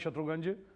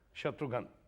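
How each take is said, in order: First: The name ends in a 'gunj' sound. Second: The name ends in a plain 'ghan' sound.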